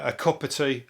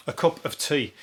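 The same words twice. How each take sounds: First: Said in the usual way. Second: "cup of tea" with OF fully sounded; careful pronunciation. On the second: Shown as a demonstration. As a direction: separate the words in "cup of tea". Self-corrects to fuller form.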